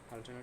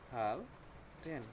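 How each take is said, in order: First: The syllables are joined smoothly without a break. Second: The syllables are said separately with a break.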